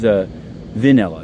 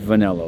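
First: It is pronounced unlike the flavor word. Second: It is pronounced like the flavor word. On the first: This is how the man's name is actually said. The speaker calls it right. "He's Vanilla" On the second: This is the common word, not the name. The speaker calls it wrong. "not Vanilla, like plain vanilla"

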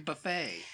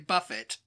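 First: It is said with an American pronunciation. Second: It is said with a British pronunciation. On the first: "You say buffet" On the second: "Like we say Buffett"

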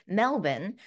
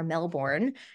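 First: It is said with a local Australian pronunciation. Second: It is said with a North American pronunciation. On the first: This is how the city's own people say it. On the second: This is how people in North America say it.

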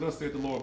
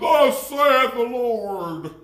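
First: It is said in an ordinary, everyday speaking voice. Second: It is said in a deep, dramatic, put-on voice. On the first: The speaker is simply passing on the message. The speaker calls it right. "Why you can't say, well" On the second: The speaker is trying to impress listeners. The speaker calls it wrong. "it's always that God voice"

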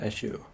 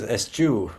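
First: The middle consonant is a soft sh sound. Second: The middle consonant is a hard ch sound. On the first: The speaker calls it wrong. "not eschew" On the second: The speaker calls it right. "it is a hard CH"

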